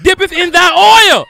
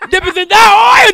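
First: Slow, shouted preacher chant, much higher and louder; hammed-up sermon chant; mock preaching. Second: Shouted preacher chant, much higher and louder; full-throated mock revival shout; mock preaching. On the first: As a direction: draw out the holy words like a revival preacher. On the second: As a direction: hit it harder like the preacher's climax.

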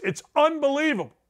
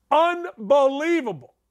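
First: Said in the usual way. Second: Stretched, emphatic repeat; drawn-out emphasis. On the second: Real, not acted. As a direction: savor the word slowly.

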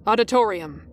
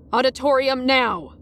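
First: Mildly brusque order. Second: Higher, insistent brusque order; firm interruption. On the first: Masked teacher sending a student on, brusque. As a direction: dismiss them with one brusque word. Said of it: "he said brusquely". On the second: Masked teacher cutting off a student's question, firm and insistent. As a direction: cut them off with a firm command. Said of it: "but he cut me off". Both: A narrator's reading.

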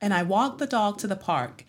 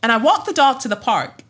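First: Softer standard American accent demo. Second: Higher-pitched African American accent demo. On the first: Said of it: "use that standard American accent". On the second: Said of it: "had to do an African American accent". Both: Shown as a demonstration.

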